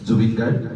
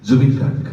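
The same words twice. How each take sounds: First: Said in the usual way. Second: Zubeen Garg declaimed louder, with a falling close; recited title. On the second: Shown as a demonstration. Opening the tribute poem at the book launch, declaimed. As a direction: give the title as the poem's first solemn line. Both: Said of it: "কবিতাৰ শিৰোনাম হৈছে".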